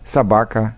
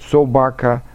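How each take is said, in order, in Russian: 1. Первый гласный слабый и не выделяется. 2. Первый гласный — чёткое, отчётливое «о». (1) "предударное «о» никак не выделяем" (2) "говорят «о» более отчетливо"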